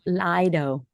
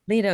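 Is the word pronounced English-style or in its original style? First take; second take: English-style; original. First: It is pronounced in an English-style way. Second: It is pronounced in its original style. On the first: The speaker calls it wrong. "I always hear English people going Lido" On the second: The speaker calls it right. "that's the right way, Lido? Lido, yeah"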